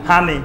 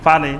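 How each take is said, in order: First: Noakhali accent. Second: Said in the usual way. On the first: Shown as a demonstration. Preacher mimics how Noakhali folk say হানি for পানি. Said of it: "নোয়াখালীর লোককে জিজ্ঞাসা করেন". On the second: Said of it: "সেখানে কি হয়?".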